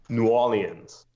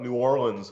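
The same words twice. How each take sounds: First: The name is said with the R skipped. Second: The name is said in full with the R. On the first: This is how locals say it. "you sort of b skip over the R" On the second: This is how outsiders from the North say it. "I always thought New Orleans was the way you said it"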